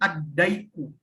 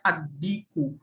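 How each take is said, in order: First: The vowel after the d is ai. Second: The vowel after the d is a plain i. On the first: The speaker calls it wrong. "bukan dibacanya adaiku" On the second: The speaker calls it right. "tetap dibacanya adiku"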